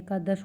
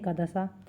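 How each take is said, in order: First: The word ends on the consonant 'sh'. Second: The word ends with an added 'a' vowel. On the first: The speaker calls it right. "एकादश होना चाहिए" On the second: The speaker calls it wrong. "पर बोल देते हैं एकादशा"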